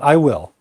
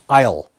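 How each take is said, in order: First: It is said as two separate full words. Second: It is contracted into one short syllable. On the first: The speaker is guessing or predicting. The speaker calls it wrong. "not I will" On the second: The speaker is volunteering on the spot. The speaker calls it right.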